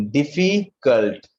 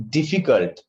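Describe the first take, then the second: First: "difficult" slowly broken into "diffi" and "cult"; split into syllables. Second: Said in the usual way. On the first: Shown as a demonstration. Teacher showing the syllables, "difficult" said slowly in parts. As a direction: stretch and separate the parts of "difficult". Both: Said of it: "Two syllable are there".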